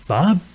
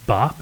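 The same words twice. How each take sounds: First: "Bob?" said as a question, rising clearly higher at the end; asking tune on Bob. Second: Said in the usual way. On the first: Shown as a demonstration. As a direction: ask "Bob?" as if checking who answered. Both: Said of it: "but say it as a question".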